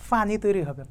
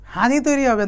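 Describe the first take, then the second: First: It is said in standard Bengali. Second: It is said in a Noakhali accent.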